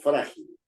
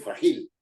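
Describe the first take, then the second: First: The stress falls on the first syllable. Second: The stress falls on the last syllable. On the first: The speaker calls it right. "el acento está en fra" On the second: The speaker calls it wrong. "Nadie dice"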